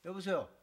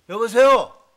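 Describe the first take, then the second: First: Said in the usual way. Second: A loud, impatient hello into the phone; fed-up shout into the receiver. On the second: Acted. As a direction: bark it down a dead line. Repeated answering a silent call.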